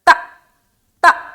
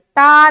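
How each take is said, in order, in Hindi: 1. अक्षर अचानक झटके के साथ छोटा काटा जाता है। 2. अक्षर लंबे स्वर के साथ खींचा जाता है। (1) "त त ऐसा" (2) "ता नहीं पढ़ना"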